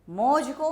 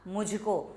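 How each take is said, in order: First: It is said as 'mauj ko'. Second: It is said as 'mujhko'. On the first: The speaker calls it wrong. "मौज को कोई शब्द नहीं होता" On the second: The speaker calls it right. "या तो मुझे शब्द होता है या मुझको"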